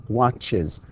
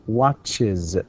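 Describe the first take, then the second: The two takes are said the same way.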